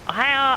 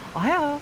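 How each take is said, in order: First: It is said in a pinched, nasal voice. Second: It is said in a plain, normal voice. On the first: The speaker calls it wrong. "he says it like he is like his fingers on his nose" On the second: The speaker calls it right. "you could say like"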